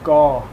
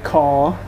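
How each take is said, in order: First: The word begins with a soft G sound. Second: The word begins with a hard K sound. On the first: The speaker calls it right. "It's spelled with like a G sound" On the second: The speaker calls it wrong. "It's not kaw. It's not spelled with a K in Thai"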